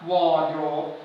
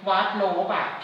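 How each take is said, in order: First: It has two syllables ending in a b sound. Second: It has three syllables ending in an added vowel. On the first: The speaker calls it right. "อ่านว่าวอลโดรบ" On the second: The speaker calls it wrong. "อ่านเป็นวัดโลบะผิดนะ"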